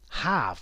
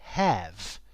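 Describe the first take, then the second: First: Said with a modern RP vowel. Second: Said with a posh upper-class vowel. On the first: "I would say the words married and have in almost R P" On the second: "would be have in posh English"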